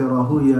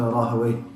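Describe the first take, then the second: First: The name ends with a 'ya' sound. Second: The name ends with a 'way' sound. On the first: This follows the form passed down by narration. "the way it's been narrated is Rahuya" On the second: This follows the rules of grammar. "The grammarians, they say Rahaway"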